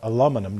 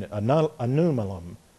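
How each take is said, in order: First: The word is said with l, m, n in order. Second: The word is said with n and l sounds swapped. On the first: The speaker calls it right. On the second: The speaker calls it wrong.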